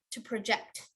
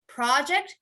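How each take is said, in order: First: Emphasize the end of project; stress on second syllable. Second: Emphasize the start of Project; stress on first syllable. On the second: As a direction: Project as PROJ-ect, slowly. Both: Shown as a demonstration. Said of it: "that's a noun and verb".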